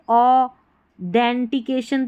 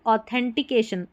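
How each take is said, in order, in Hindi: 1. बीच के शब्दांश की शुरुआत 'd' ध्वनि से होती है। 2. बीच के शब्दांश की शुरुआत 'th' ध्वनि से होती है। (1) "अगर हम टी एच ई एन को देन पढ़ देंगे, ऑ डेंटिकेशन तो कोई स्पेलिंग नहीं होती" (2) "ऐसे पढ़ना है"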